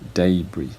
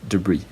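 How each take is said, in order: First: The stress is on the first syllable. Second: The stress is on the second syllable. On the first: This is the British pronunciation. "in British English, uh, it is pronounced debris" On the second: This is the General American pronunciation. "the second syllable is stressed, the first syllable is unstressed"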